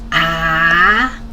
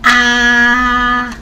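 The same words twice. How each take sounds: First: The pitch rises from mid to high. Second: The pitch stays high and level. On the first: "It's a rising tone" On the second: "This is the first tone"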